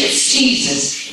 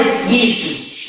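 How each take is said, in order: First: Jesus said as JEE-zus, with a J sound at the start; English pronunciation. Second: Jesus said as YAY-soos, with a Y sound at the start; German pronunciation. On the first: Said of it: "In English". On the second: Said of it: "In German". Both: Shown as a demonstration.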